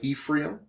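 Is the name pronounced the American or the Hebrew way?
American. The name is said with an American pronunciation. The speaker calls it wrong. "We usually say Ephraim"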